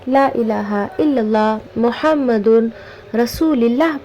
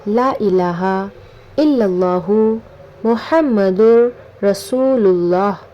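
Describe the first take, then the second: First: Muhammadun with n, then rasulillah with an i. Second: Muhammadur with r linked into rasulullah. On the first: The speaker calls it wrong. "कलमा को बहुत से लोग गलत पढ़ते हैं" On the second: The speaker calls it right. "सही कलमा ये है"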